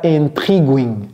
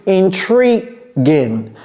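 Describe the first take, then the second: First: "intriguing" wrongly ending in "gwing"; mispronunciation. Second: "intriguing" slowly, as in-TREE-ging; correct pronunciation. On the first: Teacher rejects the U being pronounced, faulty demo. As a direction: put a w glide into "intriguing". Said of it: "Non, c'est pas intriguing". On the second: Teacher shows the middle is like tree, careful model. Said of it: "C'est intri-, tree, comme l'arbre". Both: Shown as a demonstration.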